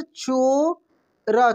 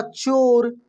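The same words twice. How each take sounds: First: चोरा stretched very slowly, the o held; drawn-out spelling-out. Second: Said in the usual way. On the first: Shown as a demonstration. Teacher to pupils, spelling out the word slowly. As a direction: sound out चोरा for the class. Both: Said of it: "कैसे?".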